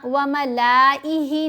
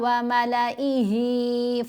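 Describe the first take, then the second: First: The vowel after the l is lengthened. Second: The vowel after the l is short. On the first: The speaker calls it wrong. "यहाँ व मलाइही नहीं पढ़ना" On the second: The speaker calls it right. "इसको मद्दा के तौर पर नहीं पढ़ेंगे"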